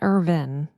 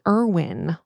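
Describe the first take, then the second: First: The middle consonant is a v sound. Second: The middle consonant is a w sound. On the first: The speaker calls it wrong. "not Irvin" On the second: The speaker calls it right. "Emily Irwin"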